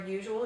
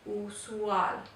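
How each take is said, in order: First: It is pronounced the English way. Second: It is pronounced the Spanish way. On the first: "the word for usual" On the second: "is usual"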